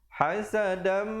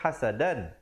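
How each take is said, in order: First: It ends in a nasalized m, merged forward. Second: It ends with a plain n sound. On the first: The ending merges into the following m. "bila datang mim hukumnya idgham bi gunnah, masuk beserta dengung" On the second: This is the word's basic form on its own. "asalnya hasadan, dal tanwin dua di atas bunyi dan"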